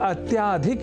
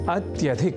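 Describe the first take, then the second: First: The vowel after 'ty' is long. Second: The vowel after 'ty' is short. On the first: The speaker calls it wrong. "अत्याधिक इस रूप में न केवल लिखने की ही बल्कि बोलने की भी प्रवृत्ति या कुप्रवृत्ति" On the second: The speaker calls it right. "वह शब्द है अत्यधिक"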